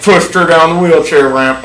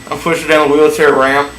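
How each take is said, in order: First: "pushed" punched and drawn out; stress on pushed. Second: Said in the usual way. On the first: Shown as a demonstration. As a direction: lean hard and slowly on "pushed". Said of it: "Not, like". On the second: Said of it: "Not, like, pushed her".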